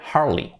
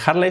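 First: The final vowel sounds like 'ee'. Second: The final vowel sounds like 'ay'. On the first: The speaker calls it right. "se dice Harley" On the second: The speaker calls it wrong. "no se dice Harley"

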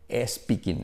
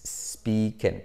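First: An extra e vowel is added before the s. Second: The word starts directly with the s sound. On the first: The speaker calls it wrong. "los españoles decimos es speaking" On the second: The speaker calls it right. "en vez de speaking"

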